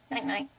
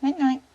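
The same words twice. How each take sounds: First: Said in the usual way. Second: Louder, higher bedtime call to the bird. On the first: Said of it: "Say night-night". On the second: Shown as a demonstration. Owner prompting her parrot to say goodnight, louder and higher. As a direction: sing it out for the bird to repeat. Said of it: "You say night-night?".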